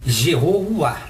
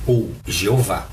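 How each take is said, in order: First: Said in the usual way. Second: Jeová said lower and slower, drawn out; slow, low second reading of Jeová; alternate pronunciation. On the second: Shown as a demonstration. (Jeová mais grave e lento)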